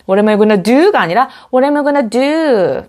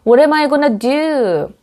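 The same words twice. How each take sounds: First: What am I gonna do said flat first, then rising and falling; wrong versus right tune. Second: What am I gonna do rising and falling back down; rise then fall. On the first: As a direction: contrast the flat take with the rise-fall. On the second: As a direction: lift mid-question then drop at do. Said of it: "끝이 올라갔다 다시 내려와야". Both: Shown as a demonstration.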